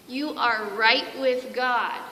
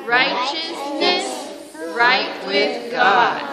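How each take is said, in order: First: Said in the usual way. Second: Put-on slow, loud, drawn out for kids to repeat; slow call and response. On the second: Shown as a demonstration. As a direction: lead the class in repeating it. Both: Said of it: "Can you say that with me?".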